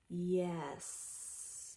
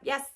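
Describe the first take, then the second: First: It is said slowly, drawn out and quiet. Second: It is said quickly and clipped short.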